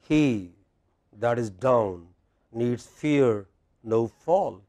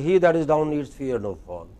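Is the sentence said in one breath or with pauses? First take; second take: pauses; one breath. First: The sentence is broken up by pauses. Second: The sentence runs together in one breath. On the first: The speaker calls it right. "with proper pauses, there is no problem" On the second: The speaker calls it wrong. "in one breath, but it is not English"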